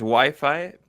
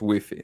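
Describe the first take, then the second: First: The word has the Latin American pronunciation. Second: The word has the pronunciation used in Spain. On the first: "en Latinoamérica es Wi-Fi" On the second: "en España es una de esas que es Wi-Fi"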